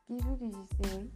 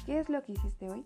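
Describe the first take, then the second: First: It is mumbled with barely moving lips. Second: It is clearly articulated with wide lip movement. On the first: "Con la boca entrecerrada, sin articular, sin mover los labios" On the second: "si muevo mucho los labios, abro la garganta y pregunto"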